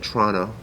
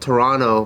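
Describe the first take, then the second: First: It is said with a Canadian pronunciation. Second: It is said with an American pronunciation. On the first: "but then you guys say Toronto" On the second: "Americans say Toronto"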